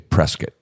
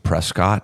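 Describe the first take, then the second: First: The name is said unlike its spelling. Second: The name is said the way it is spelled. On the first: The speaker calls it right. "They say Prescott" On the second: The speaker calls it wrong. "they don't pronounce it Prescott, even though that's how it's spelled"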